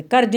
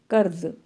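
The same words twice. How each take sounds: First: "कर्ज" ending in a j, as karj; J sound, no nukta. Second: "कर्ज" ending in a buzzing z, as karz; nukta Z sound. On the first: Teacher showing pupils the reading to avoid, "कर्ज" with a final j. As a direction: say "कर्ज" with a plain j at the end. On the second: Teacher modelling the nukta reading for pupils, "कर्ज" with a final z. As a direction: say "कर्ज" with z, not j, at the end. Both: Shown as a demonstration. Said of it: "कर्ज नहीं पढ़ेंगे".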